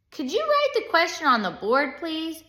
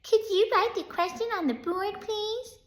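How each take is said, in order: First: Higher-pitched pupil voice; puzzled kid asking for help; pupil's request. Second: Sneering imitation of a kid's request; mocking. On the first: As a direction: ask the teacher in a raised pitch. Pupil asks, later mocked by teacher. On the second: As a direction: mimic the pupil in a mocking squeak. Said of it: "In a mocking voice". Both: A narrator's reading.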